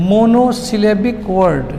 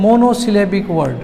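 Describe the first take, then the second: First: "Monosyllabic word" very slowly, piece by piece; slow dictation. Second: Said in the usual way. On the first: Shown as a demonstration. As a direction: spell out the sounds of "Monosyllabic word" in stretched chunks. Teacher repeats new term slowly.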